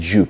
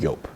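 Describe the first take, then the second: First: The name begins with a J sound. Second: The name begins with a Y sound. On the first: This is the common local way of saying it. The speaker calls it wrong. "we pronounce it Jupe" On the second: This is the original way of saying it. The speaker calls it right. "It's actually pronounced Yope"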